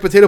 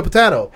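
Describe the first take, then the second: First: "potato" with a long ay, po-TAY-to; usual pronunciation. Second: "potato" with an ah, po-TAH-to; odd pronunciation. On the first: Man quoting the old comparison, usual pronunciation. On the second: Man quoting the old comparison, odd pronunciation. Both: Shown as a demonstration. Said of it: "never heard anyone say potato".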